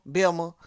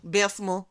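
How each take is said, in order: First: "Belma", the local squashed form of Bessemer; local pronunciation. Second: "Bessemer" with its middle s sounded; the full name "Bessemer"; full pronunciation. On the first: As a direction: say "Belma" in two loose syllables. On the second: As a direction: say "Bessemer" as spelled, louder. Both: Shown as a demonstration. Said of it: "I say Belma too".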